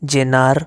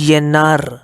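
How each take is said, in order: First: It begins with a j sound. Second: It begins with a y sound.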